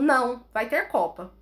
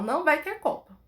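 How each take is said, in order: First: It has a pause after não. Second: It is said without a pause after não.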